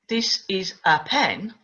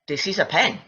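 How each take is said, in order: First: Each word is said separately and carefully. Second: The words run together quickly and smoothly. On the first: The speaker calls it wrong. "I wouldn't say" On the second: The speaker calls it right. "I'd say"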